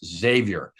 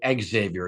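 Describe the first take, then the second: First: The X is not pronounced as 'ex'. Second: The X is pronounced as an 'ex' sound. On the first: The speaker calls it right. "it's Xavier" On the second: The speaker calls it wrong. "you cannot say Xavier"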